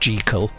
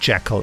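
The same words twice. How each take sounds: First: The name rhymes with the word treacle. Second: The name does not rhyme with treacle. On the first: This is the intended pronunciation of the name. "supposed to be pronounced Jekyll" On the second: This is the pronunciation everyone commonly uses. "everyone has always said Jekyll"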